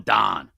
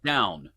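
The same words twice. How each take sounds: First: "down" flattened to "dahn"; "down" with a long "ah" vowel; Pittsburgh "down". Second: Said in the usual way. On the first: Shown as a demonstration. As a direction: say "down" like "Don", Yinzer style. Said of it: "That's a Yinzer accent". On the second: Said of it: "what does Don mean".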